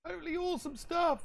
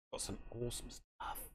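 First: Much higher, squeaky put-on voice; silly high voice. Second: Breathy hushed whisper, much softer. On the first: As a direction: jump way up into a goofy voice. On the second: Acted. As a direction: whisper it like a secret treasure. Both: Gloating over thrift finds.

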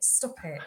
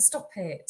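First: Softer, lower repeat of stop it; soft embarrassed plea again. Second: Soft, low mock-despairing stop it; soft embarrassed plea; quiet groan. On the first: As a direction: beg quietly. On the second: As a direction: wave it away softly. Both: Real, not acted. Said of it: "oh, don't".

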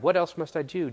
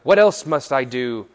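First: Said in the usual way. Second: Loud question; big, emphatic acted asking; young man's eager question. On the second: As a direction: fire the question out loudly. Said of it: "the young man replied".

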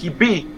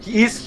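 First: La forma del slang: "he be"; he be en lugar de "he is". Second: Said in the usual way. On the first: Shown as a demonstration. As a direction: di "he be", con be sin conjugar. ("he be" dicho como en el inglés afroamericano) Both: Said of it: "en vez de decir".

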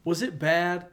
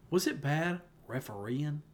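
First: Said in the usual way. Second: Imitating a Southern drawl on "refereeing", said slowly; a light mock Southern "refereeing" with no G; Southern accent. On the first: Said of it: "you're just talking normal". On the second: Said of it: "And then you said refereeing".

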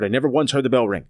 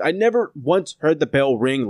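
First: "I never once heard the bell ring" said faster, leaning on "once"; emphasized. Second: Said in the usual way. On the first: Shown as a demonstration. Reviewer stressing "once" to his co-host. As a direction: hammer home "once", pace quickened. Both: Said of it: "Let me emphasize that part".

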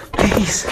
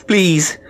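First: Even higher pleading Please, fading; a last high, desperate Please; pleading again, higher. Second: High, loud pleading please; desperate plea. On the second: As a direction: beg with the word Please, pitched high. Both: Acted. Sick woman begging for medicine.

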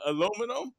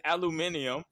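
First: "aluminum" said as uh-LOO-mih-num; four syllables, stress on LOO in "aluminum"; American pronunciation. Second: "aluminium" said as al-yoo-MIN-ee-um; five syllables, stress on MIN in "aluminium"; British pronunciation. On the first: Giving the usual word for contrast, American "uh-LOO-mih-num". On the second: Showing how they say it, British "al-yoo-MIN-ee-um". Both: Shown as a demonstration. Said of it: "They say, uh".

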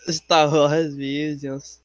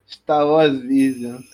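First: Very drawn-out title; slow announcer. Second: Drawn-out announcement; slow announcer. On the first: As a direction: draw it out even more slowly. Echoing the title slower. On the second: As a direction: stretch each word like a trailer. Announcing the show title. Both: Pretend.

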